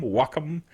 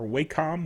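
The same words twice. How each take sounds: First: "Wacom" said WAH-kum; alternative pronunciation. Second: "Wacom" said WAY-com; alternative pronunciation. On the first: Host offering the brand's other pronunciation, "Wacom" as WAH-kum. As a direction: say "Wacom" with an ah, short second syllable. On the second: Host offering another way to say the brand, "Wacom" as WAY-com. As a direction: say "Wacom" with a long A, as in way. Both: Shown as a demonstration. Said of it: "however you want to pronounce it".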